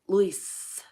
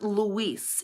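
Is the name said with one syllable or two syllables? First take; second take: one syllable; two syllables. First: The name is said with one syllable. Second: The name is said with two syllables. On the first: The speaker calls it right. "It is one syllable" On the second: The speaker calls it wrong. "My name is not Luis"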